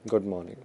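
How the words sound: It is said in a sad tone. "sad facial expression बना लो आप"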